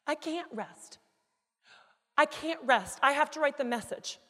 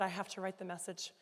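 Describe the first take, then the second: First: High, loud, emphatic refusal to stop; convicted insistence. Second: Said in the usual way. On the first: Retold or imitated. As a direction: insist urgently, growing louder. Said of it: "I was convicted". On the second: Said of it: "Because when I said".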